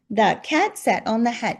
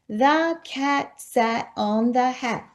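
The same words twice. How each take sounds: First: It is read in a lively, excited way. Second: It is read in a flat, plain way.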